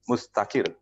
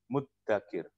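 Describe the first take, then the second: First: The middle has a z sound followed by t. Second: The middle has a doubled d sound. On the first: The speaker takes great effort. "punya za, punya tak" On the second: The speaker takes the least effort. "Pakainya dal, bukan zal"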